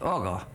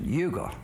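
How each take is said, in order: First: The name begins with an 'uh' sound. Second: The name begins with a 'yoo' sound. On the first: The speaker calls it right. "it's pronounced Uga, as in Mugga" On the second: The speaker calls it wrong. "a lot of people mispronounce it. They pronounce it Yuga"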